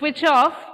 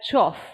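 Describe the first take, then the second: First: Both words are said fully and separately. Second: The words merge into one short syllable. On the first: "instead of switch off" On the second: "it's heard as choff"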